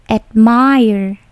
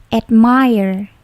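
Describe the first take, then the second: The two takes are said the same way.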